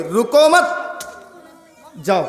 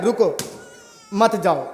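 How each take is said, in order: First: रुको मत joined and rising, a pause, then जाओ; pause after मत. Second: Low falling रुको, a full pause, then मत जाओ; pause after रुको. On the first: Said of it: "मत को पहले जोड़ देंगे". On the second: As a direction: breathe after रुको, keeping मत जाओ together. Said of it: "रुको के बाद अगर सांस ले रहे हैं". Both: Shown as a demonstration.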